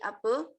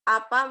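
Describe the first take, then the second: First: The word ends in an 'e'-like sound. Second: The word ends in an open 'a' sound.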